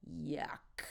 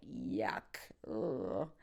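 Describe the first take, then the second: First: Whispered, softer yuck of disgust. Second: Much lower yuck of disgust. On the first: After stepping in dog poo, a whispered yuck of disgust. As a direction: recoil and whisper it. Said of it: "yuck and ick express disgust". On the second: Tasting a failed meal, a low disgusted yuck. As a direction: drop it low like a bad taste. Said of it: "doesn't turn out to be delish". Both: Shown as a demonstration.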